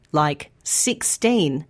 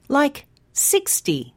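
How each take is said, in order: First: Put-on sixteen said slowly with the weight on teen; stress on teen. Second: Sixty said slowly with six strong and ty short; stress on six. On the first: Teacher showing learners the teen sound, slow. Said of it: "end in teen". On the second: Teacher showing learners the short ty ending, slow. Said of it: "numbers that end in T". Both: Shown as a demonstration.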